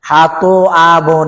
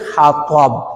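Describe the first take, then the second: First: The middle letter is split into two syllables. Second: The middle letter is one smooth sound. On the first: The speaker calls it wrong. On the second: The speaker calls it right.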